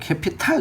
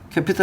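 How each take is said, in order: First: The last syllable has an open 'a' vowel. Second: The last syllable has an 'eo' vowel.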